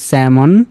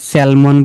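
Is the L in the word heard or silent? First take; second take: silent; heard. First: The L sound is left out entirely. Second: The L sound is pronounced in the middle. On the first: The speaker calls it right. "এটা হচ্ছে স্যামন" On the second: The speaker calls it wrong. "যেখানে স্যালমন বলি আমরা"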